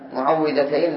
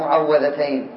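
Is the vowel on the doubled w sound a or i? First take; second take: i; a. First: The doubled w carries the vowel i. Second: The doubled w carries the vowel a. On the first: The surahs are the ones that give protection. The speaker calls it right. "نقول بكسر الواو" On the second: The surahs are the ones that are protected. The speaker calls it wrong. "لا بفتحها"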